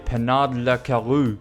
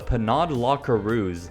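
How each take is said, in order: First: It is said with an exaggerated French accent. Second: It is said with a plain English accent.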